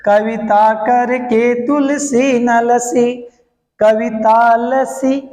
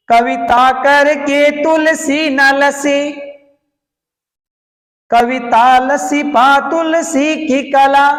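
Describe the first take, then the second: First: लसी said with a short सी, slow and clear; correct short pronunciation. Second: लसी and करके drawn out, slow and higher, with syllables stretched; deliberately wrong pronunciation. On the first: Teacher showing students the right reading, slow and clear. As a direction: say लसी with a quick light सी, unhurried. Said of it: "देख, फिर देखो". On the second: Teacher demonstrating the mistaken reading, stretched and slow. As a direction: say it slowly, stretching लसी as if its सी were long. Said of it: "अब बोलते समय मैं जो बोल रहा हूं उसको ध्यान से देखिए, कहां कहां मिस्टेक है".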